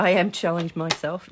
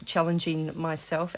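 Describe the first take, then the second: First: Louder, firm emphasis on I; emphatic. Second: Said in the usual way. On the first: Real, not acted. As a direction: say it proudly and loud.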